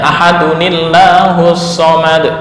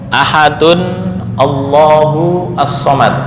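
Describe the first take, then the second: First: The words are joined with an added i vowel. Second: The words are said separately, without linking. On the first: "bacanya bacanya ahadunillahus somad" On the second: "contoh ahadun Allahu as-somad"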